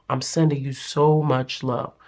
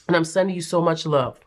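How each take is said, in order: First: Tender. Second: Said in the usual way. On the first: Real, not acted. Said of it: "repeated softer".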